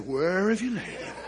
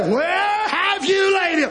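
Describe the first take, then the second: First: Quietly retold question, softened; subdued question. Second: High, drawn-out cry of a question; preacher's cry. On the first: Preacher voicing Jesus at Lazarus' death, subdued. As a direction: ask it softly, holding back. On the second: Retold or imitated. Preacher voicing Jesus' long-awaited question, crying out. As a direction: call it out slowly, pitched high.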